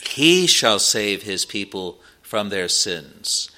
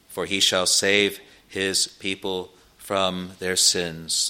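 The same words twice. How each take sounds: First: He stressed at the start, the rest slow and falling. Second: Said in the usual way. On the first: Shown as a demonstration. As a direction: lean hard on the word He. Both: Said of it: "the emphasis in the original is on the word he".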